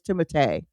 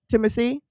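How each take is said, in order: First: The name is pronounced the French way. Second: The name is pronounced the American English way. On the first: This is the name's actual French form. The speaker calls it right. "but it actually is" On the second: This is how most people in America say it. The speaker calls it wrong. "We are saying"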